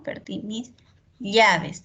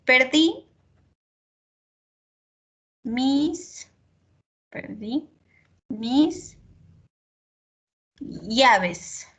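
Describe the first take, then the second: First: Llaves with a palatal ll, ʎabes; correct pronunciation. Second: Perdí mis llaves with long pauses, llaves as abes; drawn out word by word; slow spelled-out demo. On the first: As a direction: llaves with the ll sound. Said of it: "debería ser". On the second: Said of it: "el español se escribe como suena". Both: Shown as a demonstration.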